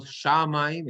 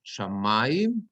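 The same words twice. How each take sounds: First: Shamayim with misplaced stress; wrong stress. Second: Shamayim slowly, stress on the mem syllable; correct stress. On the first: Teacher shows the common mistake. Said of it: "It's not shamayim". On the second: Teacher models stress under the mem, slowly. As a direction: model the proper shamayim, slow. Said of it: "it's shamayim". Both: Shown as a demonstration.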